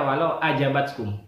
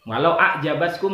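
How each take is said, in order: First: The word has a plain glottal stop instead. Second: The word has a throaty ain consonant. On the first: The woman is willing. The speaker calls it wrong. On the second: The woman impresses you. The speaker calls it right.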